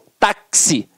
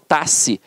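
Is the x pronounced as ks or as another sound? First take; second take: ks; another sound. First: The x is pronounced as ks. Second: The x is not pronounced as ks. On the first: The speaker calls it right. "eu falo táxi... ele tem um som de K S" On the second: The speaker calls it wrong. "eu não falo taxi"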